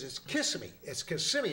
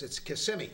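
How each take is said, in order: First: "Kissimmee" clipped to KISS-mee, the middle syllable dropped; wife insists: "Kissimmee" squeezed to two syllables; wife's pronunciation. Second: "Kissimmee" said KISS-im-mee, the full three syllables; husband insists: "Kissimmee" with all three syllables; husband's pronunciation. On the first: Wife arguing back in the joke, "Kissimmee" as KISS-mee. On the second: Arguing husband in the joke, "Kissimmee" with all three syllables. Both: Retold or imitated. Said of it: "arguing back and forth".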